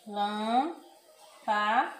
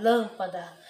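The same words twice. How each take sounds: First: Lâmpada drawn out very slowly, â closed; closed nasal â. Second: Lâmpada with a trapped, breathless â and a laugh; breathless closed â. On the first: Teacher models the circumflex: slow closed â. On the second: Teacher mocks a stuck word: breathless lâmpada. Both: Shown as a demonstration. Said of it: "como se tivesse sem fôlego".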